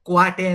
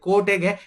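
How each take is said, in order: First: The first syllable has a wa sound. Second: The first syllable has a plain o vowel. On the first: This is the Dharwad region form. "ಕ್ವಾಟೆ ಅಂತಾರೆ" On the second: This is the Mysore region form.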